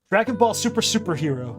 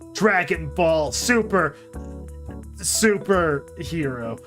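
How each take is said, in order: First: It is said fast without a break. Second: It is said slowly with a break.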